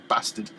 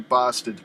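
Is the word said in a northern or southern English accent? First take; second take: northern; southern. First: Said with a flat northern English vowel. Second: Said with a southern English vowel sound. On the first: "we say bastard. ... it's got more vitriol to it" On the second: "in the south you may say bastard"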